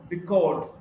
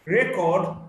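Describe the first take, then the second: First: Record as ri-KORD; record, weight on the last syllable; stress on second syllable. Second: Record as REK-ord; record, weight up front; stress on first syllable. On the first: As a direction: lean on CORD in record. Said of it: "stressed in the second syllable". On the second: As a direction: punch the REC in record. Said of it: "stressed in the first syllable". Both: Shown as a demonstration.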